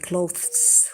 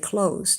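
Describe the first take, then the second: First: It is said with a th sound. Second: It is said without a th sound. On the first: The speaker calls it wrong. "You don't say clothes with a th" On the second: The speaker calls it right. "You say clothes"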